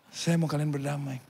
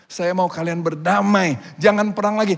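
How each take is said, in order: First: Soft, measured restatement; calm insistence. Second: Raised, emphatic appeal for peace; insistent plea. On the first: Missionary answers saddened warriors, soft calm insistence. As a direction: repeat the wish quietly and firmly. Missionary calmly repeats his wish. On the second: Missionary to warring villages, insistent raised plea. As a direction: plead firmly over the fighting. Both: Acted.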